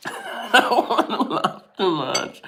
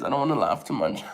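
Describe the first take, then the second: First: Words broken up by real laughter; laughing through it. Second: Said in the usual way. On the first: Real, not acted. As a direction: try not to laugh but fail. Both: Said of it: "It hurts to laugh".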